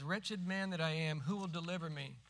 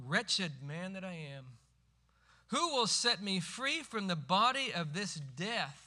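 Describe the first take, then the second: First: Said in the usual way. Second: Louder, slowing, pleading to be set free; desperate cry. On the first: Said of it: "almost as soon as he says". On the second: Retold or imitated. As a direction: cry the verse out in anguish. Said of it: "He cries out".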